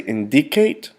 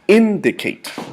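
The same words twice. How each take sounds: First: The stress is on a later syllable. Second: The stress is on the first syllable. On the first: The speaker calls it wrong. "We do not say indicate" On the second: The speaker calls it right. "the accent is placed in the first syllable of indicate"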